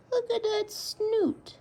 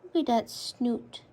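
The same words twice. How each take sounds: First: Slow cooing. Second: Said in the usual way. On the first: Real, not acted. Cooing repeated.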